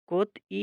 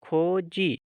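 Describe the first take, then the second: First: The middle consonant is a t sound. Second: The middle consonant is a j sound. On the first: "ये कोत ई कोत ई है" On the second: "तो इसको पढ़ेंगे खोजी"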